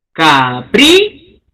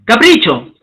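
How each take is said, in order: First: Capricho drawn out slowly, lower, leaning on PRI; slow stress demo. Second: Said in the usual way. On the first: Shown as a demonstration. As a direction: stretch it to show the stress.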